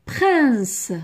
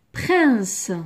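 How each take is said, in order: Both takes have the same delivery.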